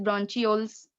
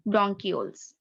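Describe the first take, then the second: First: "bronchioles" with ch as in church; alternative pronunciation. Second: Said in the usual way. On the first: Shown as a demonstration. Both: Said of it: "Some people pronounce it bronchioles".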